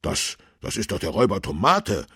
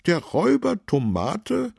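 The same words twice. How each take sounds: First: Higher, louder, quick stammered start; excited call. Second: Very high, loud, incredulous question; astonished question. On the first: Policeman spots the fleeing robber, excited call. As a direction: blurt it out in excited recognition. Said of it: "rief Tobias Kern aufgeregt". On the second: Councillor astonished to hear of the robber, surprised question. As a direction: echo it in high-voiced amazement. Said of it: "fragte Fabian Pix erstaunt". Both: A narrator's reading.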